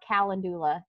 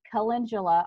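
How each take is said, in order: First: The word is said the country way. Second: The word is said the standard way.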